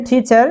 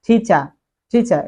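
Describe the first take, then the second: First: 'টিচার' with final r sounded; American pronunciation. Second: 'টিচার' as 'tichaa', r dropped; British pronunciation. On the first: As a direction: end 'টিচার' on a clear r. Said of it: "American টিচার". (American ধাঁচে 'টিচার', র সহ) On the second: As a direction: drop the r of 'টিচার', falling. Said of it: "but British টিচার". (British ধাঁচে 'টিচার', র ছাড়া) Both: Shown as a demonstration.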